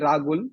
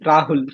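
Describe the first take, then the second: First: A G sound is heard between the vowels. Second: A deep H sound is heard between the vowels. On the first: This is how people in the hometown say it. "with a G in it instead of H" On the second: This is the common way people elsewhere say it. "with H uh, being deeper"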